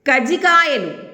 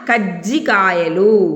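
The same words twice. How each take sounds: First: The j sound is short and single. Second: The j sound is held and doubled. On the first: "ఒకవేళ ఈ లేదనుకోండి" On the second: "అదే జావత్ ఇస్తే కజ్జి ఒత్తి పలుకుతాం కదా"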